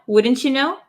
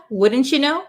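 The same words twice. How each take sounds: No difference in how they are said.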